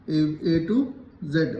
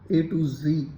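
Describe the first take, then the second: First: The last letter is pronounced zed. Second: The last letter is pronounced zee. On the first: This is how the older generation said it. "हम लोग जेड बोलते थे" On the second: This is how young people say it nowadays. "तुम लोग आजकल जी बोलते हो"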